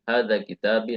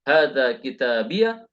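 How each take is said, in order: First: The last word ends in a plain 'i'. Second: The last word ends in a doubled 'iyya'. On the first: It is the more common reading. "seringnya dengan sukun" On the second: It is an allowed but less common reading. "Kita bisa membaca"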